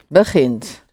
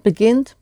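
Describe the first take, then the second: First: The g is a throaty, guttural sound. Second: The g is a hard, plosive g. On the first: The speaker calls it right. "but it's a G" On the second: The speaker calls it wrong. "Not begint"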